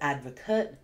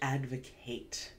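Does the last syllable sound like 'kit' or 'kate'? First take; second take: kit; kate. First: The last syllable has a short, weak vowel. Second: The last syllable has a full 'ate' vowel. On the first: It names a person who supports a cause. "The noun is advocate" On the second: It means to publicly support something. "the verb is advocate"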